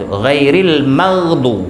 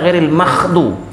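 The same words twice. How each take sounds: First: The middle consonant is a voiced gh sound. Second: The middle consonant is pushed out breathy like kh. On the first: The speaker calls it right. "matinya ghin di situ" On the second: The speaker calls it wrong. "Karena dia tekan keluar angin sehingga jadilah huruf kha"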